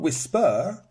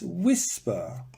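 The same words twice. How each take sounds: First: The stress is on the second syllable. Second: The stress is on the first syllable. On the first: The speaker calls it wrong. "It's not" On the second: The speaker calls it right. "it's whisper ... because it's here, not at the end"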